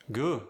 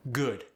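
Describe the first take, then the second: First: "Good" with final D barely touched, goo'; Cajun soft D. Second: Said in the usual way. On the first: Shown as a demonstration. Coach showing softened Cajun final D. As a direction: leave the D off "Good". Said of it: "barely touched". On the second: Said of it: "final T and D are softened".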